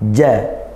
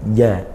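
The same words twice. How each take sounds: First: The j is pressed firmly with full closure. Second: The j is soft, sounding nearly like y. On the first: The speaker calls it right. "seperti itu" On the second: The speaker calls it wrong. "kalau kita melafalkan huruf jim tapi kurang penekanannya ... seperti huruf ya ... ini kurang"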